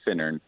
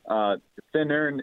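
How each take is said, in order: First: The stress is on the first syllable. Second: The stress is on the last syllable. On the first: "usually they say Finnern" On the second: "The emphasis doesn't have to be on the ends there"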